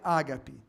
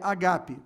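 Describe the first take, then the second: First: The stress is on the first syllable. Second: The stress is on the second syllable. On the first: The speaker calls it wrong. "não fale ágape" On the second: The speaker calls it right. "mas é paroxítona"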